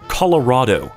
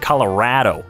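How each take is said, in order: First: It is said in a generic American way. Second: It is said in a local Coloradan way. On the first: "I don't say Colorado anymore" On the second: "I say Colorado a lot. I say that freaking Coloradan accent really gets me sometimes"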